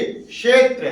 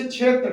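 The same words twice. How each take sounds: First: क्षेत्र with k-sh, "kshetra"; correct क्षेत्र. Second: क्षेत्र with chh, "chhetra"; colloquial क्षेत्र. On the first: Teacher teaching the sound through English spelling, correctly pronounced. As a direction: begin क्षेत्र with a crisp sh cluster. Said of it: "अंग्रेजी से हिंदी सीखिए". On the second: Teacher giving the common form as example, mispronounced. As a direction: begin क्षेत्र with a chh sound. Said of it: "अब अगला उदाहरण होता है". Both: Shown as a demonstration.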